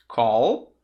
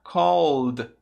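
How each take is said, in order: First: "Call" drawn out on a voiced L; voiced final L. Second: "called" as one drawn-out syllable ending in voiced D; added final D. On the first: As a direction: say "Call" alone, holding the L. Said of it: "olha só". ("Call" com o L final vozeado) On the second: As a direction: hold the L in "called", then close on D. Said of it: "vai virar um som de D". ("called" com som de D no final) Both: Shown as a demonstration.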